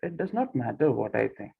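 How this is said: It is said in a passive, yielding tone. "it becomes little passive"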